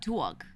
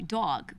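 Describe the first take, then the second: First: The vowel is not the 'aw' sound. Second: The vowel is a drawn-out 'aw' sound. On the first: This is a local variant rarely heard in media. "But what about dog? Who says that?" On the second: This is the stereotypical New York way. "D A W G, dog, which is what everyone thinks of for a New York accent"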